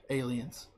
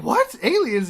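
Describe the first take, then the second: First: Soft, low-key confirmation; understated answer. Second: High, loud mock astonishment; shocked disbelief. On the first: Retold or imitated. Fandango confirming it to Breeze, understated. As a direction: drop it quietly, as a plain fact. Acted matter-of-fact answer to shock. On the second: Breeze hearing about the aliens, astonished. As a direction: yelp it back in disbelief.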